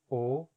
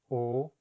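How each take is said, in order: The two takes are said the same way.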